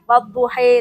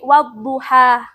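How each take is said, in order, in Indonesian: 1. Vokal akhirnya condong ke 'e'. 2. Vokal akhirnya adalah 'a' terbuka yang jelas. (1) "dibaca akhirnya dengan imalah, miring-miring gitu kan" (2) "diajari wadduha dengan fathah"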